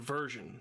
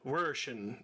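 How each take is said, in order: First: The word is said with a plain accent. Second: The word is said with a German-like accent. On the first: "instead of version" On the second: "he said version ... so he's German or some shit"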